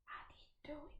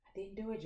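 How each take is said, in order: First: Breathy confessional whisper, high and hushed; mock guilty whisper. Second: Said in the usual way. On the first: Gardener confessing to viewers, in a mock guilty whisper.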